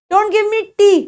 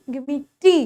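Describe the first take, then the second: First: Tea said flat like Hindi ट; "tea" with a hard Hindi retroflex t; mispronounced "tea" with a heavy retroflex t; wrong tea. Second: "tea" with a soft English t, said quietly; correct tea. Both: Shown as a demonstration.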